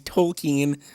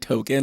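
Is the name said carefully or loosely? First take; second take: carefully; loosely. First: The name is said carefully with full sounds. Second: The name is said loosely in his own accent. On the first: The speaker calls it right. "I'll say it properly" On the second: The speaker calls it wrong. "I just say Tolkien. I say it wrong all the time"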